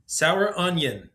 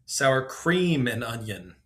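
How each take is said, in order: First: Put-on high child voice, drawn out; small child saying it slowly. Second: Gentle correction. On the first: Child repeats snack name. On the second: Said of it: "Clarissa said gently". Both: A narrator's reading.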